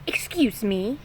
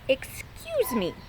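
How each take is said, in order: First: Quick annoyed call; short irritated call from the nest; irritable first call. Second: Slow, drawn-out pointed repeat; called slowly. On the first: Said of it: "yelled Stumpy irritably". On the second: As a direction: stretch it out to make the point. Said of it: "called Stumpy". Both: Acted.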